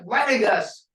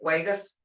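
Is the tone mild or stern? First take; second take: stern; mild. First: It is said in a stern, forceful tone. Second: It is said in a mild, ordinary tone.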